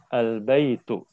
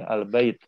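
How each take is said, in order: First: The word ends with a final u vowel. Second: The word ends on t without a vowel. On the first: This is the full standard reading. "tu-nya itu kita munculkan" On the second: This is an acceptable conversational reading. "nggak apa-apa dalam percakapan"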